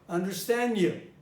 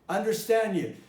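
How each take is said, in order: The two takes are said the same way.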